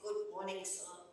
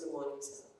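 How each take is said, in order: First: It is said brightly and cheerfully. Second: It is said flatly and subdued.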